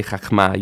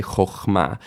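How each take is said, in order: First: CHACHMA with an ah in the first syllable; A vowel. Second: CHOCHMA with an oh in the first syllable; O vowel. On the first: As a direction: say chachma with AH before the MA. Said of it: "you don't say chachma". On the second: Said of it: "you say chochma". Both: Shown as a demonstration.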